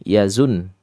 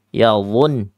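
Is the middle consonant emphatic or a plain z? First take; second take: plain z; emphatic. First: The middle consonant is a light plain z. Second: The middle consonant is heavy and emphatic. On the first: The speaker calls it wrong. "maka dia akan melenceng ke yazun" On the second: The speaker calls it right. "Menempel ya. Dia lengket ke langit-langit mulut"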